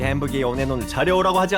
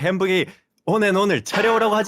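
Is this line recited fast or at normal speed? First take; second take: fast; normal. First: The line is recited at a faster pace. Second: The line is recited at a normal pace.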